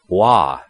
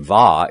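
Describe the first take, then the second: First: The syllable begins with a W sound. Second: The syllable begins with a V sound. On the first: The speaker calls it right. "it would be Wa" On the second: The speaker calls it wrong. "it wouldn't be Va"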